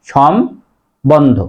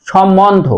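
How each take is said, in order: First: সম্বন্ধ slowly split, shom, pause, bondho; slow two-part shom-bondho for সম্বন্ধ; correct pronunciation. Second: সম্বন্ধ as shom-mondho, m doubled; the wrong shommondho for সম্বন্ধ; common mispronunciation. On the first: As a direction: sound out সম্বন্ধ with a clear b. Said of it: "সঠিক উচ্চারণ হবে". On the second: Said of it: "মটা দ্বিত্ব করে". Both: Shown as a demonstration.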